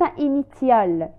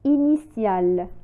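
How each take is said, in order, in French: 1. La consonne du milieu se prononce comme « t ». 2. La consonne du milieu se prononce comme « s ». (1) "وليس initial" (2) "la lettre T se prononce S"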